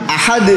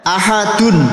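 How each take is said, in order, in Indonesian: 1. Kata ini berakhir dengan 'd' yang jelas memantul. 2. Kata ini berakhir dengan bunyi sengau 'un'.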